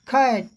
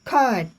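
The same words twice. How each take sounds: No difference in how they are said.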